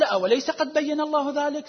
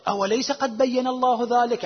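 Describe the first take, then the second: First: Higher, rising wonder on الله; stronger astonishment. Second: A touch of wonder on الله, slower; mild astonishment. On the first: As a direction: really marvel that he didn't know. (تعجب واضح بنبرة أعلى في "الله") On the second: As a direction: ask it gently, half amazed. (تعجب خفيف في "الله") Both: Retold or imitated. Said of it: "عبارة تعجب من النبي".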